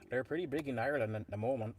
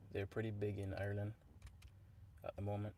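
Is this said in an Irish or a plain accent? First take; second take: Irish; plain. First: It is said in a put-on Irish accent. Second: It is said in the speaker's usual accent.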